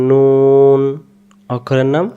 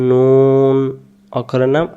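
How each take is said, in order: Both takes have the same delivery.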